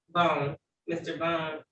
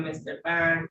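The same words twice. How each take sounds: First: "Bone" rhyming with phone, said slowly; self-correcting to a long-O "Bone"; corrected surname. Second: "Bond" pronounced like "bahn"; surname "Bond" with AH, before self-correcting; mispronounced surname. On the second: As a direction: say "Bond" with an open AH vowel. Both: Real, not acted.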